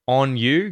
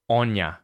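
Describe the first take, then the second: First: The word 'you' is said in full. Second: The word 'you' is reduced to 'ya'.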